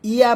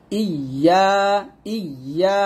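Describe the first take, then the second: First: ইয়া short, without doubling the Y; clipped-short undoubled ইয়া; wrong single Y. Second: ইয়া with a held, doubled Y and long A; slow, geminated ইয়া. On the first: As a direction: say ইয়া quickly with a light single Y. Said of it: "ইয়া বলবেন না". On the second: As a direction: lean on the Y of ইয়া before opening the vowel. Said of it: "এটা উচ্চারণ করতে হবে". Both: Shown as a demonstration.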